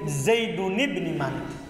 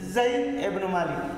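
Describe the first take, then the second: First: The first name ends with a nasal -un ending. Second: The first name ends without a nasal -un ending. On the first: This form is not used. The speaker calls it wrong. "Dia tidak bilang Zaidun ibn Malik" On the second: This is how it is actually said. The speaker calls it right. "Mereka bilang Zaid ibn Malik"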